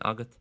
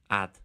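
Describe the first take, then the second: First: The G sound in the middle is pronounced. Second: The G sound in the middle is dropped. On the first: "instead of saying agat" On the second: "real Connemara thing again of not pronouncing the G"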